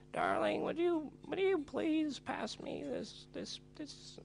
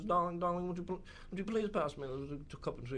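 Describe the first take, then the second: First: Much higher, slow, fading into a whisper; hammed-up old maid asking sweetly; mock posh old lady. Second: Lightly voiced South London grandma, a touch higher; a hint of a doting grandma asking for tea; mild mock of a fussy old lady; imitating grandma's speech. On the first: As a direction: falsetto posh old dear voice. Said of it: "and be like". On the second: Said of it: "she always talks like this".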